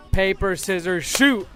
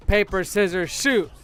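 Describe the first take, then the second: No difference in how they are said.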